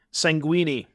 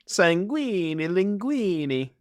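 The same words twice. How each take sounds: First: Said in the usual way. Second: Slow, sing-song mock Italian accent, a bit higher. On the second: Shown as a demonstration. Streamer rhyming the card name in a mock Italian accent. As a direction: ham up a cartoon Italian accent. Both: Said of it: "I gotta work on my Italian accent".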